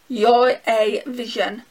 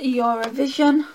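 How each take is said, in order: First: The three words are said separately and clearly. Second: The words run together like one word, Eurovision.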